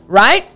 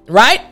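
No difference in how they are said.

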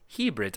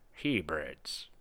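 First: It is said in the speaker's plain accent. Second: It is said in an imitated Scottish accent. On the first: The speaker calls it wrong. "I'm definitely not saying it right" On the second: The speaker calls it right. "Scottish accent here. Sean Connery"

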